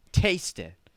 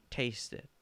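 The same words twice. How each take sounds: First: Louder, higher insistence; insistent prompting. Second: Soft prompting. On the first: Urging doubtful Grandma to try it, loud and insistent. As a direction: press the doubter to do it. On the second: Offering Grandma the stirred macaroni, soft prompting. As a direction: offer it quietly. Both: Acted.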